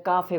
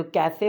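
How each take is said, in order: First: काफ़े with long "aah", ending "ay"; Spanish pronunciation. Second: कैफ़े with "ka" as in cat; English pronunciation. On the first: Teacher gives Spanish word, काफ़े with long "aah". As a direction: say काफ़े as "KAA-fay". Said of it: "Spanish में काफ़े बोलते हैं". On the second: Teacher quotes English word, कैफ़े with open "a". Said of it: "होता है ना English में". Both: Shown as a demonstration.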